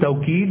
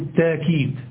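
First: The word has a w sound after the first t. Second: The word has a long a after the first t. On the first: "التوكيد بالواو" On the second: "والتأكيد بالألف"

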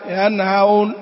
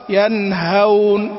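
First: The h is weakened like a softened glottal catch. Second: The h is pronounced clearly as a breathy h. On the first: The speaker calls it wrong. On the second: The speaker calls it right.

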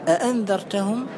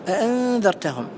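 No difference in how they are said.

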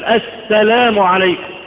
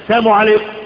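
First: The 'l' sound is clearly said in the greeting. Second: The 'l' sound is left out of the greeting. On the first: It wishes peace upon the listener. The speaker calls it right. "مفروض انك انت تميز كلمة السلام" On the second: It wishes death upon the listener. The speaker calls it wrong. "الناس يقول هذه الكلمة ولا يدري معناها"

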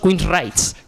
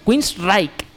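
First: The name does not end with a k sound. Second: The name ends with a k sound. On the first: This is how everyone here says it. The speaker calls it wrong. "Y todos lo decimos" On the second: This is the band's own pronunciation. The speaker calls it right. "si lo decimos bien tendría que sonar el nombre como"

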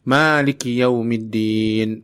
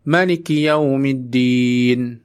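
First: The first vowel of maliki is held long. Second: The first vowel of maliki is kept short. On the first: God is the owner of the Day of Judgment. "maknya dipanjangkan artinya pemilik" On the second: God is the king of the Day of Judgment. "Allah adalah raja hari pembalasan"

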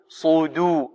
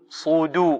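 Both takes have the same delivery.

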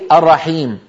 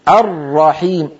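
First: The r sound is short and single. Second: The r sound is held long and doubled. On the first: The speaker calls it wrong. "لا تقولي الرحيم" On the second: The speaker calls it right. "الراء المشددة هي مضاعفة، راءان"

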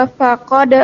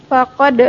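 No difference in how they are said.

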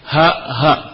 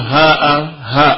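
First: Short vowels, with no glottal stop. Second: Long, drawn-out vowels. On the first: "Kalau dengan qasr berarti tanpa hamzah" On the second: "ada pula yang membacanya dengan mad"

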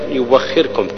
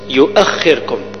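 First: A w sound replaces the glottal stop. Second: A glottal stop follows the first syllable. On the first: This follows the Warsh reading rule. "أبدلها ورش واو مفتوحة" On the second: This is the original form of the word. "الأصل يؤخركم"

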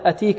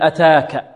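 First: The middle vowel is an 'ee' sound. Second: The middle vowel is a long 'aa' sound. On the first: The speaker calls it wrong. "هكذا يعني بالياء" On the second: The speaker calls it right. "تقرأ ألفا"

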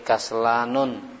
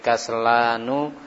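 First: The word ends with an added n sound. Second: The word ends on a vowel without n. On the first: The speaker calls it wrong. "tidak boleh kaslanun" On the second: The speaker calls it right. "tapi kaslanu"

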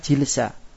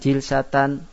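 First: The word ends on a short a sound. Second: The word ends with a full -atan ending. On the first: It is read as the pausal form at a stop. "Itu kalau dibaca waqaf" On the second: It is read in connected form without a stop. "Kalau kita baca tidak waqaf"

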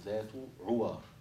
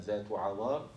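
First: The first vowel of the second word is 'u'. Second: The first vowel of the second word is 'a'. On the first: "وبضمها" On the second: "بفتح العين المهملة"

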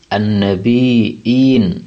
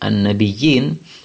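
First: The middle has a glottal stop before the long i. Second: The middle has a doubled y sound before i. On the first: The word comes from a root meaning to give news. "bacaan Nafi' itu an-nabi, an-nabiin" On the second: The word comes from a root meaning to appear high. "Kalau dibaca an-nabiyu, an-nabiyin, maka itu dari kata-kata nabayambu"

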